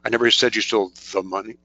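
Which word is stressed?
the. The word "the" is stressed. "The doesn't really work too well"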